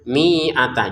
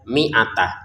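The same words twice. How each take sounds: First: The vowel after the m is drawn out long. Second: The vowel after the m is kept short. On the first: The speaker calls it wrong. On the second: The speaker calls it right. "ini tidak dipanjangkan. Jadi cara bacanya langsung saja"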